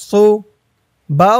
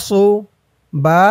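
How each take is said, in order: Both takes have the same delivery.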